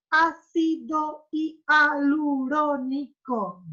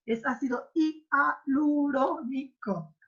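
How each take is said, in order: First: "Ácido hialurónico" broken into slow syllables; split into syllables. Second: "ácido hialurónico" said slowly with clear syllable beats; correct syllable split. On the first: Teacher to class, mocking actress's syllable split. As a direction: chop "Ácido hialurónico" into beats. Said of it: "¿Cómo se para hialurónico así?". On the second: Teacher to class, correcting a syllable split. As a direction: show the right split of "hialurónico". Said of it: "no sabe separar en sílabas". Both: Shown as a demonstration.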